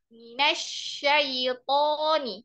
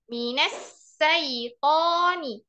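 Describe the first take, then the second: First: The consonant is a 'sh' sound. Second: The consonant is an 's' sound. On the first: The speaker calls it right. "Seharusnya pakai shin" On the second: The speaker calls it wrong. "tapi kita baca pakai sin"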